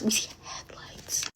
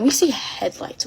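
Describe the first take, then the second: First: Very soft, slow whisper; suspenseful voiceless whisper; hushed whisper. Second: Said in the usual way. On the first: Retold or imitated. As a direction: whisper it slowly, as if hiding. Hiding, repeats it in a whisper.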